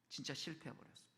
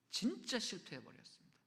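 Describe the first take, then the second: First: 낮고 작게 말끝을 떨구며; '진짜'를 힘 빼고 조용히; 가라앉은 탄식. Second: '진짜'를 길게 끌며 힘주어; '진짜' 강조. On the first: 실패를 안타깝게 두 번 되풀이. (낮게 가라앉힌 목소리로) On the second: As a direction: lean hard on '진짜', stretched out. 되풀이하며 '진짜'를 강조. ('진짜'를 길게 늘여 강조) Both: Real, not acted.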